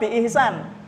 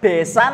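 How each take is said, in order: First: It is said as a longer Arabic-sounding word. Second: It is said as a short two-syllable word. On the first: This is the original, harder form. The speaker calls it right. "daripada biihsan" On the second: This is the everyday, easier form. The speaker calls it wrong. "Ngucap besan lebih gampang"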